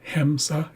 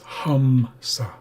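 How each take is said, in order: First: The first vowel sounds like 'eh'. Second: The first vowel sounds like 'uh'. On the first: The speaker calls it wrong. "pronounce this E like an eh, but that would be incorrect" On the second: The speaker calls it right. "it can sound like the uh sound"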